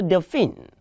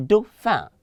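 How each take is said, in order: First: "dauphine" with a sounded N at the end; wrong pronunciation. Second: "dauphin" ending in a nasal vowel, no N sounded; French "dauphin", final consonant left off; correct French pronunciation. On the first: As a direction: mispronounce it as "dauphine", ending in "-feen". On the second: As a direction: say "dauphin" as doh-fan with a silent N. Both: Shown as a demonstration. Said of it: "Please do not say dauphine".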